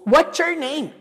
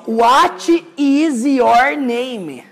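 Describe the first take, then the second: First: The words are contracted and run together. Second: Each word is said separately and mechanically. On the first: The speaker calls it right. "Maneira mais clássica de você ouvir" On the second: The speaker calls it wrong. "quadradão assim, garanto pra você que você não vai ouvir assim na prática"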